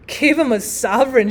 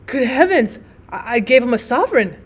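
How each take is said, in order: First: Mild narrated shout of disbelief; incredulous exclamation. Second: Mildly aghast, stumbling on the first word; a touch of shocked dismay in the confession. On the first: Trevor echoes Hughie's confession before laughing, mildly shouted disbelief. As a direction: exclaim it back, lightly incredulous. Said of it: "shouted Trevor". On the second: Hughie learns who the beggar was, mildly dismayed. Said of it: "the picture of dismay". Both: A narrator's reading.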